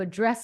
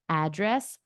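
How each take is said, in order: First: The stress is on the second syllable. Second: The stress is on the first syllable. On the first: It is a verb. "the emphasis on the second syllable are verbs" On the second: It is a noun. "the ones that have emphasis on the first syllable"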